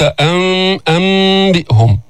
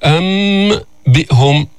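First: "أم بئهم" with a hummed m flowing into b; hidden meem. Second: "أم بئهم" slowly with a clear m, separated from b; exposed meem. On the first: Teacher showing concealment, "أم بئهم" with connected hum. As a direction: hold the nasal lightly, glide into bi'hum. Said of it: "مخفاة يعني ليست مظهرة". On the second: Teacher showing what is not said, "أم بئهم" with detached m. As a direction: finish amm, then start bi'hum. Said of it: "ما قلت". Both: Shown as a demonstration.

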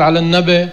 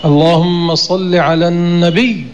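First: Quick, النبي ending in a short "-be"; wrong colloquial pronunciation. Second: Slow and full, النبي ending on a held double y; correct, with shadda. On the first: Teacher shows what must not be said, quick colloquial ending. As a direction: clip النبي to "nabe", no doubled y. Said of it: "لا يقال على النبي". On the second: Teacher shows how it should be said, slow with shadda. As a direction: draw the phrase out and press the final y of النبي. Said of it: "هكذا يقال". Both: Shown as a demonstration.

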